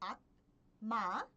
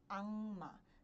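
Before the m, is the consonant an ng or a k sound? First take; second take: k; ng. First: A k sound comes before the m. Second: An ng sound comes before the m. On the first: The speaker calls it wrong. "Ao invés de pronunciar como akma" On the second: The speaker calls it right. "vocês pronunciam como anma e vocês escutam como anma"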